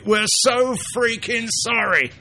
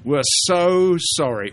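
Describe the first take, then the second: First: Higher still, slow exaggerated grovel; over-the-top Python-style sorry; Monty Python apology. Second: Higher, slow mock-grovelling apology; hammed-up sorry in a higher voice; Monty Python apology. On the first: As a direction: pile it on to absurd apology. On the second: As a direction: lay the apology on thick, Python style. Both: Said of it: "that's a Monty Python thing".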